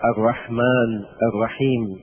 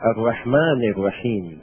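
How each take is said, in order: First: The word endings are cut off without vowels. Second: The word endings carry their full vowels. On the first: The speaker calls it wrong. "لا نقول" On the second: The speaker calls it right. "لابد من الإعراب"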